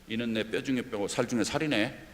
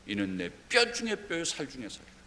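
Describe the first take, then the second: First: It is said in a flat, plain way. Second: It is said in an admiring, praising way.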